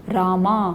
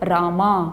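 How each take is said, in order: First: The final vowel is drawn out long. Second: The same.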